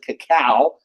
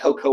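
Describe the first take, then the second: First: The word is said as ka-KOW. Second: The word is said as KOH-koh. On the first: "most people pronounce it cacao" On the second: "but cocoa works just fine"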